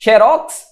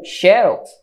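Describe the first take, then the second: First: "Xerox" as xe-RÓX, end punched; last-syllable stress. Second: "xerox" as XÉ-rox, front stressed; first-syllable stress. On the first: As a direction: land on the final syllable of "Xerox". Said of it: "oxítona". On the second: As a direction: bring the stress forward to XÉ in "xerox". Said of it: "se eu antecedo a sílaba tônica". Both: Shown as a demonstration.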